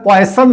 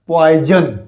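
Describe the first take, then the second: First: The middle consonant is an s sound. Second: The middle consonant is a z sound. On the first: The speaker calls it wrong. "Word आ गया पॉइसन" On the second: The speaker calls it right. "नहीं पॉइजन sound होगा"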